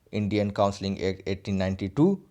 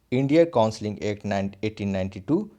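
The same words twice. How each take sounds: Both takes have the same delivery.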